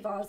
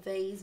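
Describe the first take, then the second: First: It is said with a British vowel. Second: It is said with a non-British vowel. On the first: "We say vase in the UK" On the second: "Or vase"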